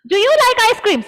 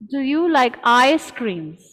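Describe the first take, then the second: First: It is shouted loudly from the very start. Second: It starts low and calmly rises in pitch. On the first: It sounds like scolding someone. The speaker calls it wrong. "Half of you all were screaming" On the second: It sounds like a friendly question. The speaker calls it right. "That's how it should be"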